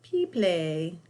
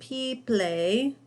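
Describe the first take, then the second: First: The ending is said like the word play. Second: The ending is said like the word play.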